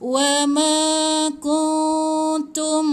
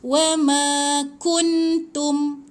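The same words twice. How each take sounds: First: The n in kuntum is hidden with nasal sound. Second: The n in kuntum is pronounced fully and clearly. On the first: The speaker calls it right. "ni ikhfa hakiki... ikut cara saya baca" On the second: The speaker calls it wrong. "Nun ni jangan sebut tepat pada nun. Tak boleh baca wa ma kuntum"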